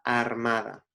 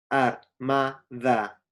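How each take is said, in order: First: Said in the usual way. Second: "armada" very slowly as ar, MA, DA; syllable by syllable. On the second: Shown as a demonstration. Teacher showing where the rhyme falls, "armada" split into slow syllables. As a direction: pause between each syllable of "armada". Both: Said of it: "las sílabas ma, da".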